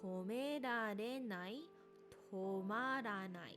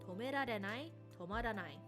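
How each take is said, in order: First: The phrase is said at a slow pace. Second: The phrase is said at a quick pace.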